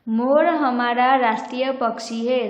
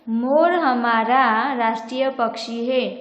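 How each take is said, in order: First: The stress is on राष्ट्रीय. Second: The stress is on हमारा.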